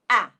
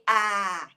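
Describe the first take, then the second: First: The vowel is cut off short. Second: The vowel is drawn out long. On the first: The speaker calls it right. "Make it short" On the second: The speaker calls it wrong. "So don't say ah"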